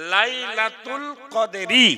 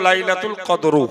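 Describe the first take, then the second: First: The last word ends with an 'i' vowel. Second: The last word ends with an 'u' vowel. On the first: The speaker calls it right. "লাইলাতুল কদরি জের আছে" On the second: The speaker calls it wrong. "হুজুর পড়ে দিল"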